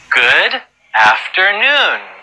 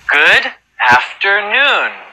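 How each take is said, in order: The two takes are said the same way.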